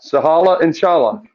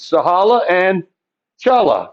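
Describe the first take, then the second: First: Said in the usual way. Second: Sahala and Chala spaced out as names; name said slowly. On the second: Shown as a demonstration. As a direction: give the pair of new names, syllable by syllable. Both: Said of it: "two new parent functions".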